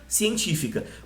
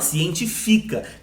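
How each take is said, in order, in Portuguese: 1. A tônica está na antepenúltima sílaba. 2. A tônica está na penúltima sílaba. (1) "ela é uma proparoxítona, ela que a sílaba mais forte é a antepenúltima" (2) "Se não tiver o acento, como é que você fala?"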